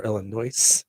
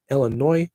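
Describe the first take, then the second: First: Illinois said ill-uh-NOISE, ending on an s; Illinois, s sounded. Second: Illinois said ill-uh-NOY, no s at the end; Illinois, silent s. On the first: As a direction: say Illinois with a hard final s. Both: Shown as a demonstration. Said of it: "Depends on how you like to say it".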